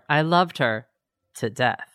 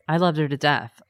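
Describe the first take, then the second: First: A pause comes before 'to death'. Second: No pause comes before 'to death'. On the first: He caused her death. "It's an insertion of a pause" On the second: He loved her very much. "There was no pause. Therefore, he just loved her that much"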